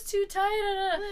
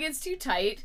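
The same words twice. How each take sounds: First: It is said in a strongly whining voice. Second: It is said with much less whining. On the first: The speaker calls it wrong. "Not in that voice" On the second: The speaker calls it right. "Not quite as much whining as"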